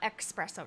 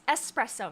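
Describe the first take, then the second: First: The word begins with an 'ex' sound. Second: The word begins with an 'es' sound. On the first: The speaker calls it wrong. "Every time I hear the word ex" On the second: The speaker calls it right. "it's espresso"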